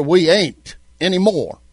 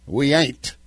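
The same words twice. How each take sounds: First: A hint of a folksy Southern accent, we ain't pressed a bit louder; playful mock Southern twang. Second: Said in the usual way. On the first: Shown as a demonstration. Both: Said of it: "strictly Southern accent and damn with grammar".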